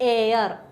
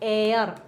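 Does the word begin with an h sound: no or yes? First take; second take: no; no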